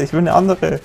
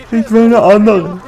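First: Said in the usual way. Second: High, louder whine on "will"; sulking about his bad weapon; whiny repeat. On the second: Shown as a demonstration. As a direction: whine it like a spoiled kid.

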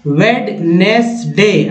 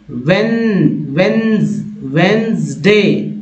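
First: "वेडनेसडे" slowly as wed-nes-day, D sounded; wrong pronunciation. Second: "वेंसडे" slowly as wens-day, first D silent; correct pronunciation. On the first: Teacher showing what people misread, wrong pronunciation. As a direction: spell out every syllable of "वेडनेसडे". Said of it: "लोग क्या पढ़ते हैं?". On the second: Teacher showing learners what to read, correct pronunciation. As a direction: build "वेंसडे" up in two beats. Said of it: "क्या पढ़ेंगे इसको?". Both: Shown as a demonstration.

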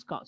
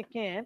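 First: CAN'T as "kahnt", long vowel; British pronunciation. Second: CAN'T with the "a" of cat; American pronunciation. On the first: Teacher stating the form the class follows, British "ah" in CAN'T. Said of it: "So we follow". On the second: Teacher warning students off this form, American "a" in CAN'T. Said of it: "So never say". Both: Shown as a demonstration.

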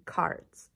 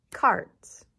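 First: Whispered word. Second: Loud snapped word. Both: Shown as a demonstration.

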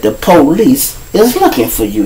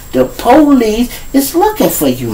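First: Said in the usual way. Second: Stretched, higher, softer "the police is looking for you"; deliberate repeat. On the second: Acted. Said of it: "I'ma say it again".

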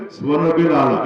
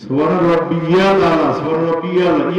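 First: রাব্বিল said plainly as "রাব্বেল" with no "ইয়া"; the common wrong রাব্বিল, no ইয়া sound; wrong pronunciation demo. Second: রাব্বিয়াল stressed with a clear "ইয়া" in the middle; correct pronunciation demo. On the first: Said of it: "এটাও ভুল". (ভুল উচ্চারণ: রাব্বিল, ইয়া ছাড়া) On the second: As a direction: stretch রাব্বিয়াল so the "ইয়াল" is heard. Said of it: "ইয়া আছে একটা". (রাব্বিয়াল শব্দে স্পষ্ট "ইয়া" দিয়ে সঠিক উচ্চারণ) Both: Shown as a demonstration.

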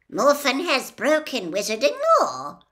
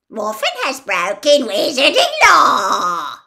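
First: Stern, measured statement; sternly. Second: Pompous sing-song parody, loud and higher; mocking imitation. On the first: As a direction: lay down the law, grave and firm. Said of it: "said Ogden sternly". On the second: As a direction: ape the official's pompous tone. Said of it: "imitated Ogden's voice, making it pompous and sing-song". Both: A narrator's reading.

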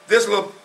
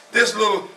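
No difference in how they are said.

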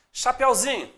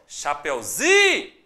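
First: Said in the usual way. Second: "Chapeuzinho" with ZI held long, then NHO dropped; calling the word. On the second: Shown as a demonstration. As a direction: call out "Chapeuzinho", stretching the ZI. ("Chapeuzinho" chamado, com o ZI bem alongado) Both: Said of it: "chama a palavra de novo".

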